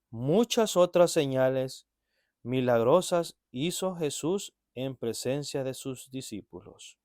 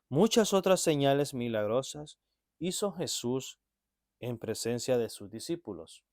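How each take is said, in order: First: It is read at a slower, deliberate pace. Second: It is read at a normal, quicker pace.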